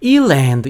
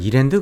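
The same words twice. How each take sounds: First: It is said with English-style pronunciation. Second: It is said with plain Korean pronunciation. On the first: "근데 꼭 말을 할 때 되면 이랜드 이래요" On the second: "그냥 우리는 이랜드 그러잖아요"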